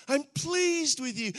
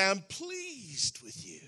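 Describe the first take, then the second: First: Higher and louder, "pleased" ringing out; proclaiming Father. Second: Tender Father's voice. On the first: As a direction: announce it with joy. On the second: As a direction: say it gently like a father to his son. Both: Retold or imitated. Father's words, said softly then strongly.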